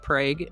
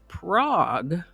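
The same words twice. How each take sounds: First: It uses the local Oklahoma pronunciation of the name. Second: It uses the usual pronunciation for the European city. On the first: It names the small town in Oklahoma. "They pronounce it Prague in Oklahoma" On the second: It names the European capital city. "That Prague is pronounced differently from the town of Prague in Oklahoma"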